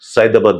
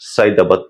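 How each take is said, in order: The two takes are said the same way.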